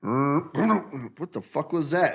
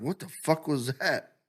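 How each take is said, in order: First: Very slow, stretched out in disbelief; hammed-up slow bewilderment; drawn-out mock surprise. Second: Quick startled question; light imitation of being startled; mock surprise. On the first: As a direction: drag every word out, baffled. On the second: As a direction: react to a strange noise. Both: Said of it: "and you're like".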